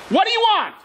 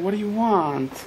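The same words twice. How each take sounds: First: The question sounds impatient and annoyed. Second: The question sounds warm and caring. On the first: The speaker does not want to be bothered. "That's one way of saying it" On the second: The speaker wants to help. "I want to help you"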